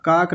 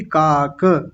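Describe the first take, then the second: First: काक as a single syllable, kaak; clipped final vowel. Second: काक as kaa-ka; full final vowel. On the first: Teacher rejecting the error, काक without final a. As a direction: end काक on a closed k. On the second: Teacher correcting the class, काक with final a sounded. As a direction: release काक into a short a. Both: Shown as a demonstration. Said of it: "काक नहीं".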